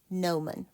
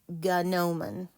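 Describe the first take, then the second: First: The word begins with an N sound. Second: The word begins with a spoken G sound. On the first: The speaker calls it right. "it's pronounced no man" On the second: The speaker calls it wrong. "It looks like gnomon, but it's actually pronounced"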